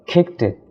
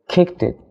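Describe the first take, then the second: Both takes have the same delivery.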